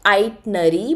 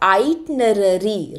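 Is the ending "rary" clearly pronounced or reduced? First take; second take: reduced; clearly pronounced. First: The final "rary" ending is not clearly pronounced. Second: The final "rary" ending is clearly pronounced. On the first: The speaker calls it wrong. "the pronunciation is not itinerary" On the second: The speaker calls it right. "Rari is how you're supposed to pronounce it"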